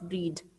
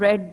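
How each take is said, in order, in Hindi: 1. स्वर लंबा है, 'reed' जैसा। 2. स्वर छोटा है, 'red' जैसा। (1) "नॉट रीड" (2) "तो हम इसको क्या प्रोनाउंस करेंगे"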